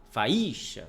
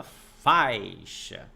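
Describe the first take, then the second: First: "faísca" said as fa-I-xa, with a punched I; stress on the I. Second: "faixa" slow, with a long strong A gliding into I; stress on the A. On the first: Teacher contrasting the wrong take, stress thrown on the I. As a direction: split A from I and hit the I. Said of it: "você não fala". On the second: Teacher giving the correct take, long stressed A in "faixa". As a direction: stretch the A loudly, keep the I weak. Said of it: "você fala". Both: Shown as a demonstration.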